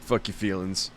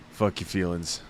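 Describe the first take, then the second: No difference in how they are said.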